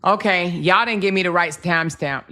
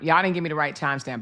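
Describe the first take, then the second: First: Loud complaint. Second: Quick, lower muttered repeat; fast mutter. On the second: Commentator grumbling at viewers, fast and lower. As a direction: rush the complaint under breath. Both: Real, not acted. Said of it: "repeated complaint".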